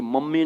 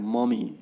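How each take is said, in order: First: मम्मी with a doubled m; मम्मी as "mum-mee"; wrong pronunciation. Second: मम्मी with one light m, "muh-mee"; मम्मी as a light model word; correct pronunciation. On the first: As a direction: hold the mm in मम्मी. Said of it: "मम्मी नहीं बोलना है". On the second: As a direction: say मम्मी without doubling the m. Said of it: "मम्मी बोलना है". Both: Shown as a demonstration.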